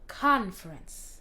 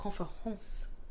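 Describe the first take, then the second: First: The stress is on the first syllable. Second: The stress is on the last syllable. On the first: "Il y a plus un accent sur conference" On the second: "le fin, c'est un peu plus fort que le, le début"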